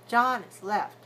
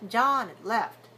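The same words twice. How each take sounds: The two takes are said the same way.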